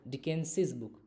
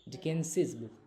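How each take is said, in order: No difference in how they are said.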